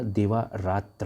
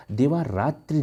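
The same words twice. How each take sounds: First: देवारात्र said as "devaratr", slowly, with no final vowel; correct form shown. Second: देवारात्रि said as "devaratri", ending on a long "i"; wrong form shown. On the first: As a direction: spell out देवारात्र slowly, ending on a bare "tr". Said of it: "देवारात्र होता है". (सही रूप देवारात्र, धीरे से, अंत में कोई मात्रा नहीं) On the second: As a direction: sound out देवारात्रि as the incorrect form, ending in "tri". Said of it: "देवारात्रि नहीं होता". (गलत रूप देवारात्रि, अंत में "त्रि" साफ़ बोलें) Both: Shown as a demonstration.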